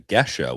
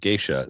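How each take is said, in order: First: The name is said in its original pronunciation. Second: The name is said in an altered pronunciation. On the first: This is the name used where the coffee comes from. "the traditional spelling and pronunciation" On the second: This is a corrupted later form of the name. "it got bastardized with geisha"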